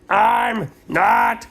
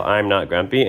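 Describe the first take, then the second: First: High, drawn-out whiny cry; sleepy protest. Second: Said in the usual way. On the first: Retold or imitated. Sleepy boy whining his denial to mom. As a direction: whine it up high as he dozes. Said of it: "and he went". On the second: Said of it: "He was gonna yell".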